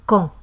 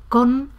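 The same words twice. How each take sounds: First: "con" with the N dropped and the O nasalised. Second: Said in the usual way. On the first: Shown as a demonstration. Teacher demonstrating lost final N, "con" with nasalised O. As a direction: drop the N of "con" into a nasal vowel. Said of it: "con la O nasalizada". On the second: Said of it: "en lugar de decir con".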